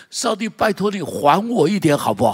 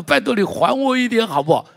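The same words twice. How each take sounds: First: Pleading, a little higher and louder; mild pleading. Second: High, loud begging plea; hammed-up pleading. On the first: Retold or imitated. Preacher voicing a debtor asking God, mild plea. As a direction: ask God to repay, half-playful. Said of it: "他说". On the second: Preacher imitating a man begging God, high and loud. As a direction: beg God to pay it back, high and loud.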